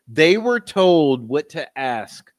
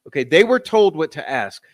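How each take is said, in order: First: Every word slow and weighted, "were" stressed; slow emphasis. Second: Said in the usual way. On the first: Real, not acted. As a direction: spell out "They were told what to ask" slowly for emphasis. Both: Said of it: "this is how I know".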